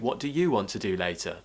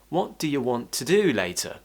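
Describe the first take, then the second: First: The word you is stressed and full. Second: The word you is relaxed and quick. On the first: The question is pushed more forcefully onto the listener. "I could actually stress the word you" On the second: A neutral, casual question. "Those other words are relaxed"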